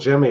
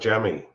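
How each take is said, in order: First: The name is said in a plain accent. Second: The name is said in a Virginia accent. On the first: "it wasn't Jimmy" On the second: "it was more like Jemmy"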